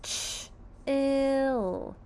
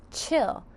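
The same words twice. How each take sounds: First: Ch-ill split, Ch then ill, stretched apart; sounding out. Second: Said in the usual way. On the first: Shown as a demonstration. Teacher sounding out chill to the class, sounds split. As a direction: break Ch-ill into its two sounds. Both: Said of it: "Let's sound out chill".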